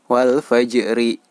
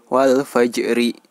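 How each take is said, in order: The two takes are said the same way.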